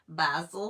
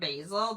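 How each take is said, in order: First: It is said the British way. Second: It is said the American way. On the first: "they say basil here" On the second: "instead of basil"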